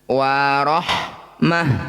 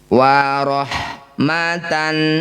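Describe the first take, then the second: First: The word ends with a soft h sound. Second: The word ends with a t and nasal ending. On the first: The reading stops at this word. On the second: The reading continues without stopping.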